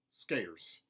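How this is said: The R sound is hard and strong. "mountain, where the R sounds are retained, but they are hardened"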